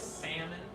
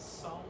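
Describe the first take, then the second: First: The first syllable sounds like 'Sam'. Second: The first syllable does not sound like 'Sam'. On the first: This is how it is said in Texas. "Sam, like short a sound" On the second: This is how some other regions say it. "some parts of the United States do pronounce it Solomon"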